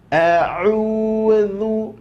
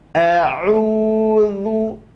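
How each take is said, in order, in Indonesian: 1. Huruf tengah itu bunyi dh, lidah di antara gigi. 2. Huruf tengah itu bunyi dh, lidah di antara gigi.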